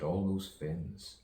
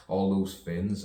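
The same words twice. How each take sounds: First: Said in the usual way. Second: Louder first take. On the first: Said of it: "I said". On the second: Shown as a demonstration. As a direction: punch all those Finns out louder. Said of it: "I said, all those Finns".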